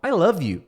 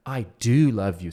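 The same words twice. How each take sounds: First: Said in the usual way. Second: "do" pressed slow and low; stress on do. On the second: Shown as a demonstration. Teacher to students, showing emphasis on "do", slow. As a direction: lean hard on "do" in "I do love you". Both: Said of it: "Você quer enfatizar isso aí".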